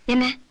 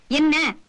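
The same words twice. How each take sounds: First: Said in the usual way. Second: "என்ன" punched out, drawn longer; insistent question. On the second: Acted. Man demanding to know what was said on the phone, "என்ன" insistent. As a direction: press hard on "என்ன" to demand an answer. Asks again, more insistently.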